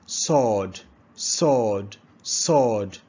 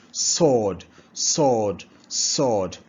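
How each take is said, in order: Both takes have the same delivery.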